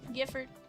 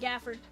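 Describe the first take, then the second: First: The first vowel sounds like the one in 'gift'. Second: The first vowel sounds like the one in 'gap'. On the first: The speaker calls it wrong. "Not Gifford" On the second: The speaker calls it right.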